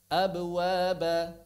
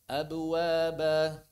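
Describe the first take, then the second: Both takes have the same delivery.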